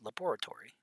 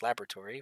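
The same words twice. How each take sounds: First: It is said with a British pronunciation. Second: It is said with an American pronunciation. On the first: "For them" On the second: "For us"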